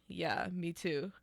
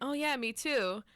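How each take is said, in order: First: It is said without enthusiasm. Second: It is said with enthusiasm.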